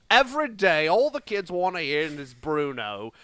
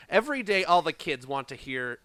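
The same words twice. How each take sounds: First: Hammed-up British accent, pitched up at first. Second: Lightly exaggerated square white-guy reading; as white as possible. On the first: Podcaster reading rap lyrics on request, mock British accent. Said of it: "Read it in your British accent". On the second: Shown as a demonstration. Podcaster reading rap lyrics, lightly put-on white-guy voice. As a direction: read rap lyrics deliberately unhip. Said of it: "read this as white as possible".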